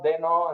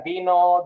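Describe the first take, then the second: First: The first vowel sounds like 'eh'. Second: The first vowel sounds like 'ee'.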